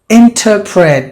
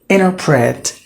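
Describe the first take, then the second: First: The T after the N is clearly pronounced. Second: The T after the N is dropped. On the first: "That's what the Britishers would say it" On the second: "the Americans will pronounce it as interpret"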